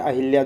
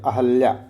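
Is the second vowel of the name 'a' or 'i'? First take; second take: i; a. First: The second syllable has an 'i' vowel. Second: The second syllable has an 'a' vowel. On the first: The speaker calls it wrong. "लेकिन लोग generally बोलते हैं अहिल्या, जो गलत है" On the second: The speaker calls it right. "शुद्ध क्या होता है, अहल्या"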